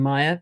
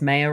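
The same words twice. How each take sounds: First: The first vowel sounds like 'eye'. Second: The first vowel sounds like 'ay'. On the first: The speaker calls it wrong. "rather than Meyer" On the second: The speaker calls it right. "I think it's Meyer ... because it's with an A"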